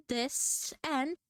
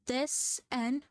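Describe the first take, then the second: No difference in how they are said.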